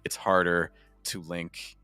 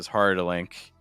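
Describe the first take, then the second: First: It is spoken slowly, with words kept apart. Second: It is spoken quickly, with words run together. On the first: The sounds are not joined together. "because I spoke a little slower" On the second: The sounds are joined together. "But if I did it faster"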